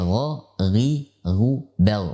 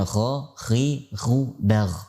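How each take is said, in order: First: The gh sounds are voiced without a breath puff. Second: The gh sounds are released with a breathy puff. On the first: The speaker calls it right. "tidak boleh menghentakkan nafas pada saat mengucapkannya" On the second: The speaker calls it wrong.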